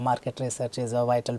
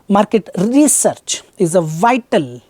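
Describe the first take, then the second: First: It flows smoothly in a natural rhythm. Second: Each word is over-pronounced in an exaggerated way. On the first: The speaker calls it right. "they would have spoken something like" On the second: The speaker calls it wrong. "try to exaggerate"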